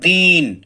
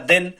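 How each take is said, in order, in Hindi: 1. शब्द अतिरिक्त जोर और लंबाई के साथ कहा गया है। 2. शब्द सामान्य रूप से, बिना अतिरिक्त जोर के कहा गया है।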